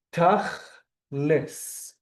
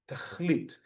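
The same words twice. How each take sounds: First: Tachlis with the final T turned to an S, drawn out slowly, Yiddish style. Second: Tachlit ending in a hard T sound, Modern Hebrew style; Hebrew reading tachlit. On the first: Teacher demonstrates the Yiddish version for the class, slow with a final S. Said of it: "in the Yiddish accent becomes an S". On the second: Teacher reads the Hebrew word aloud to class, crisp final T. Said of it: "I would read it as tachlit". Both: Shown as a demonstration.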